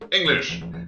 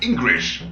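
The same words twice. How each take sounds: First: It is said in his normal voice. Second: It is said imitating the other character's voice.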